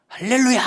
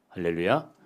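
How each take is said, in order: First: A loud, high, ringing hallelujah with a falling end; bold cry. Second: Said in the usual way. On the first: Pretend. The preacher imagines a believer's last cry, and shouts it loud and high. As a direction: shout 할렐루야 boldly, like a last triumphant cry. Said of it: "이렇게 외칠 수 있냐요".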